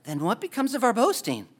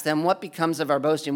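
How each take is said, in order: First: Disappointed. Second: Said in the usual way. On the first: Shown as a demonstration. Preacher reading Paul's question as if sounding disappointed. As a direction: say it like your pride just got taken away. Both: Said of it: "it seems like someone's disappointed".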